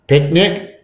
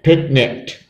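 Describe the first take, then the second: First: Said in the usual way. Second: Picnicked finished with a crisp kt. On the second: Shown as a demonstration. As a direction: add a t sound to picnic, making picnicked. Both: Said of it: "You need to add a K".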